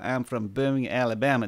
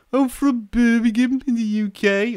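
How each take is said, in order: First: Half-hearted American Southern accent; unconvincing Alabama accent, barely put on; attempted Alabama accent. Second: High-pitched, put-on Brummie accent; Birmingham accent. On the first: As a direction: have a weak go at an Alabama accent. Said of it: "I can't do an American accent". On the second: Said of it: "I could probably do, uh, an accent". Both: Shown as a demonstration.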